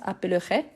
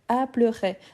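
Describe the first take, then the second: First: The E after the first syllable is sounded. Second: The E after the first syllable is silent. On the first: "il y a des gens qui prononcent appellerait" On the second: "le E, je ne"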